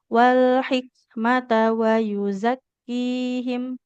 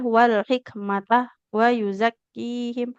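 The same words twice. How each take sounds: First: The phrase flows without a break. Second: There is a break after 'hikmata'. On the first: The speaker calls it right. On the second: The speaker calls it wrong.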